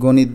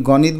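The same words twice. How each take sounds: First: গণিত with a rounded first vowel, "gonit"; o-vowel pronunciation. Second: গণিত with an open first vowel, "gawnit"; inherent vowel pronunciation. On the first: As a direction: say গণিত the spoken way, go-nit. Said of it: "গণিত না, গণিত". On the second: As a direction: say গণিত as written, gaw-nit. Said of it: "নাকি গণিত বলি". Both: Shown as a demonstration.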